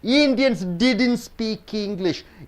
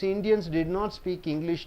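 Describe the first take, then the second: First: Did and not merge into one word. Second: The words did and not are said separately.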